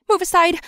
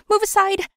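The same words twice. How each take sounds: First: High, loud panicked yell. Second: Even higher, frantic yell. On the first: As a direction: shout people out of the way. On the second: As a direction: keep shouting, more desperate. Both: Acted. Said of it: "I yelled to a passerby".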